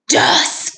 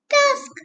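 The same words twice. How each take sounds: First: It is said in a deep, growly voice. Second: It is said in a tiny, squeaky voice. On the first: "Can you say it in a monster voice?" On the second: "Can you say it in a mouse voice?"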